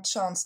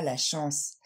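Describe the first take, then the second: First: "chance" with English "ch" and a sounded "n"; English pronunciation. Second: Said in the usual way. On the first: Shown as a demonstration. Teacher contrasts it with French for learners, English "chance". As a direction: say "chance" the English way, "tch" onset. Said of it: "Malheureusement, chance ne signifie pas la chance". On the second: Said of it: "chance ne signifie pas la chance".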